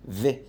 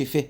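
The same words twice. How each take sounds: First: في said with a buzzing English V; voiced V. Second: ف as a voiceless F sound; unvibrated F in place of V, ف; wrong voiceless F. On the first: Teacher showing pupils the voiced V in في. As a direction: let the vocal cords vibrate on the V of في. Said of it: "ده حرف فويسد". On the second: Teacher showing pupils the mistake, voiceless ف. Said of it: "ما تقولش ف". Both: Shown as a demonstration.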